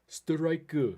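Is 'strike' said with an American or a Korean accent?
Korean. It is said with a Korean-style accent. "It's not strike"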